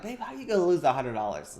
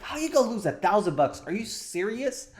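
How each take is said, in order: First: Mildly exasperated, quick mock complaint; quick, lightly frustrated husband to his wife; a little frustrated. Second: Higher, quick indignant disbelief; fast, high-pitched exasperated husband; mock angry. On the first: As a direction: act out slight frustration, speaking fast. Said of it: "I'm a little frustrated". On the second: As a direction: act out getting angry, pitch climbing. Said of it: "okay, now I'm angry".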